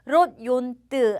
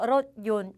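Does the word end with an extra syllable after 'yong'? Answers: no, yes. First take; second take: yes; no. First: An extra syllable is sounded after 'yong'. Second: The word ends on 'yong' with nothing after. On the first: The speaker calls it wrong. "롯 용뜨 아니에요" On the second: The speaker calls it right. "롯 용 요렇게 해주셔야 되는 거예요"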